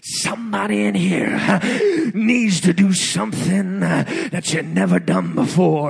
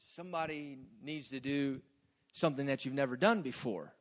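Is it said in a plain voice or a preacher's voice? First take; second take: preacher's voice; plain voice. First: It is said imitating the preacher's preaching voice. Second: It is said in a plain, ordinary voice.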